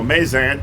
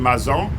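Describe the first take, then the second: First: The name is given a local anglicized pronunciation. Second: The name is given its French pronunciation. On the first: This is how people say it today. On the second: This is the original pronunciation.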